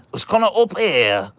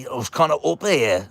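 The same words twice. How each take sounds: First: Much higher, louder Northern English smoker voice; gravelly granddad. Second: Northern English smoker voice, pitched up; gravelly granddad. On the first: Grandchild exaggerating granddad's voice, high, loud gravelly Northern English. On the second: Grandchild showing where granddad's voice sat, higher gravelly Northern English voice. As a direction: try a thick, gravelly granddad accent, placed up high. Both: Retold or imitated. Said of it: "it was very gravelly. It was kinda up here".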